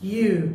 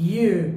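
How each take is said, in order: Both takes have the same delivery.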